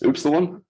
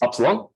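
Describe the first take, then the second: First: The first vowel sounds like 'oop'. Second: The first vowel sounds like 'up'. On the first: This is the way others expect it said. "Apparently, I should be saying" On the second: This is the British way to say it. "Upsilon is the you know Commonwealth British English way of saying it"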